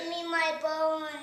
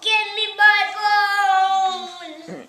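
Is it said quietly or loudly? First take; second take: quietly; loudly. First: It is said in a small, quiet voice. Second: It is said in a big, loud voice.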